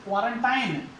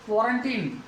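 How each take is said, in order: First: क्वारंटाइन ending in 'tine' to rhyme with fine; KWAA-run-tine for क्वारंटाइन; common variant. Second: Put-on क्वारंटीन ending in long 'teen'; KWO-run-teen for क्वारंटीन; correct pronunciation. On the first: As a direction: say क्वारंटाइन with an aai glide at the end. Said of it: "क्वारंटाइन भी सुना होगा आपने इसका". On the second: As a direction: say क्वारंटीन with an ee in the last syllable. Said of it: "लेकिन सही आप सिम". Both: Shown as a demonstration.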